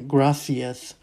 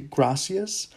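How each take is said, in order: First: The s sound is lisped like th. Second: The s sound is a plain hiss. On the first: This is how it is said in Spain. "with a lisp within Spanish culture" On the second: This is how it is said in Latin America. "is how you're going to say it within Central, mostly all Latin America"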